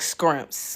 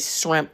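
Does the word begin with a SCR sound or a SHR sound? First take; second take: SCR sound; SHR sound. First: The word begins with a scr sound. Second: The word begins with a shr sound. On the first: It sounds street and uneducated. The speaker calls it wrong. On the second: It sounds educated. The speaker calls it right. "the right way"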